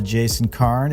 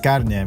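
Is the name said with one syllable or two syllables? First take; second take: one syllable; two syllables. First: The name is one syllable, final e silent. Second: The name is two syllables, final e sounded. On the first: "Silent E" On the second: "immediately say Carne"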